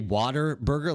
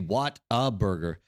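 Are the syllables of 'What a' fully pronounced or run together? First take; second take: run together; fully pronounced. First: 'What a' is run together like 'water'. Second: 'What a' is said as two separate words. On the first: This is how locals say it. The speaker calls it wrong. "we say bad Texas pronunciation. We say water burger" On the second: This is the actual name. The speaker calls it right. "but it's actually What a Burger"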